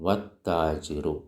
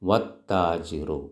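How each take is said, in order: No difference in how they are said.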